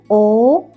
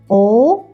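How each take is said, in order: The two takes are said the same way.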